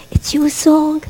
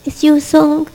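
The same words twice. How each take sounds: First: Tender whisper to the congregation. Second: Said in the usual way. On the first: Acted. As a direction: breathe "It's your song" as a secret. Whispered, then said aloud.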